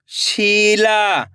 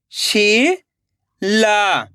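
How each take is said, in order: First: Sheila joined as one slow word; blended word. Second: Sheila split into शी, long pause, ला; rising शी, then falling ला; syllable by syllable. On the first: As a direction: read Sheila whole with drawn-out vowels, falling at the end. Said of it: "खींच के पढ़ना है". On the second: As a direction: sound out Sheila very slowly in two parts. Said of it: "एक एक अक्षर का उच्चारण करना है". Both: Shown as a demonstration.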